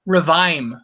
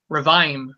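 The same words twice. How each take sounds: First: The word is said in two syllables. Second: The same.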